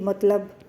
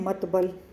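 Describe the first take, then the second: First: The consonants are l then b. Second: The consonants are b then l. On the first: The speaker calls it right. "जैसे मैंने बोला कि मतलब" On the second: The speaker calls it wrong. "मतलब लोग क्या बोलते हैं"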